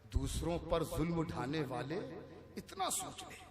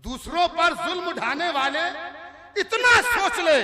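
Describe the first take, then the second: First: Soft, hushed recitation; quiet verse recital. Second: High, loud declamation; forceful verse recital. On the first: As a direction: hand the line over quietly. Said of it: "जो शेर धीरे से पढ़ दिया जाए". (धीरे से शेर पढ़ना) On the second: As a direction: project the couplet over the crowd. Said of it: "किसी शेर पर जोर लगाऊंगा". (ज़ोर लगाकर शेर पढ़ना) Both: Acted.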